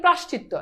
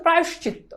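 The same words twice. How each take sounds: First: প্রাশ্চিত্য run together with no "o" glide; প্রাশ্চিত্য in the careless everyday form, middle vowel dropped; common mispronunciation. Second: প্রায়শ্চিত্ত with a clear "o" glide, "pra-yosh-chitto"; teacher's careful model of প্রায়শ্চিত্ত as "prayosh-chitto"; correct pronunciation. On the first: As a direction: say প্রাশ্চিত্য as "prash-chitto". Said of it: "এটার উচ্চারণ আমরা বলি". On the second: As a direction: sound the middle "yo" in প্রায়শ্চিত্ত. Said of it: "এটার উচ্চারণ হচ্ছে". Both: Shown as a demonstration.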